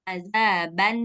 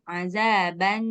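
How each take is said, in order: First: The final n sound is fully clear. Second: The final n sound is fully clear.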